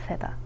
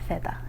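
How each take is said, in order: No difference in how they are said.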